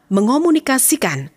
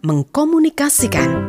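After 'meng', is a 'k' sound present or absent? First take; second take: absent; present. First: No k sound follows the 'ng'. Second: A k sound follows the 'ng'. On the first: The speaker calls it right. "yang benar adalah mengomunikasikan" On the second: The speaker calls it wrong. "bukan mengkomunikasikan"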